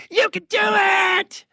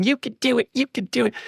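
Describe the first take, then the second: First: Very high, drawn-out shouted cheer; high strained mock yell; child's yelled encouragement. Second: Higher, quick repeated urging without shouting; small high-pitched chant of encouragement; imitated child's cheering. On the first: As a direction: imitate a little girl hollering to a player, stretching each word. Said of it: "she yells at him". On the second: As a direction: lightly mimic a little girl egging on a player. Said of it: "she's still up there pointing at him".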